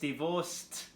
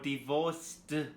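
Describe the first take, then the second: First: The ending is pronounced as a T sound. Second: The ending is not pronounced as a T sound. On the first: The speaker calls it right. "It's divorced... it's T sound" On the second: The speaker calls it wrong. "it's not divorced"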